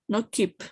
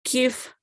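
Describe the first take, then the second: First: The word ends in a p sound. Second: The word ends in an f sound. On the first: The speaker calls it wrong. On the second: The speaker calls it right. "P H always has an F"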